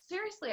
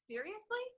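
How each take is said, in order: First: Seriously. said high and falling, settled and sure; confident seriously. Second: Seriously? asked high with a rising, doubtful lift; disbelieving seriously. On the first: Upline confirming to the doubter, high Seriously. falling firmly. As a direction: answer Seriously. with a knowing downward close. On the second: The speaker reacting to the upline's offer, disbelieving Seriously? rising high. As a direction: ask Seriously? as if you can't believe it. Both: Retold or imitated.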